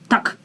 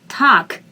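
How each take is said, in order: First: The vowel is said short and quick. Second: The vowel is said long and drawn out. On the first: The speaker calls it wrong. "Not fast" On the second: The speaker calls it right. "but longer"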